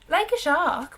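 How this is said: It is said in an attempted Welsh accent. "I might try it in Welsh"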